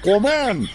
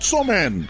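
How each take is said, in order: First: The word starts with a k sound. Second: The word starts with a ch sound. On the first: The speaker calls it right. "উচ্চাৰণটো কমেণ্টহে হয়" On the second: The speaker calls it wrong. "Not চমেন"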